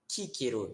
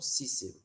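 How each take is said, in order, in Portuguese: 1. Todo C é pronunciado como K forte. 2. O C não é pronunciado como K forte. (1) "a gente vai pronunciar todos os Cs como K" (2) "e não"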